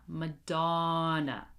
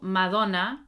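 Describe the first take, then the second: First: It is said with English vowels and sounds. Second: It is said with Spanish vowels and sounds. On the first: The speaker calls it right. "We're going to say" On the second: The speaker calls it wrong.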